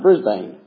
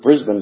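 First: The name is said the American way. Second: The name is said the Australian way. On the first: "most people here are going to pronounce it Brisbane" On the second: "an Aussie would get so indignant because it's Brisbane to them"

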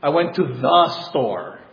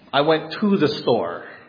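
First: The word the is stressed. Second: The word to is stressed. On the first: It was the intended store. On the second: The speaker did not go inside.

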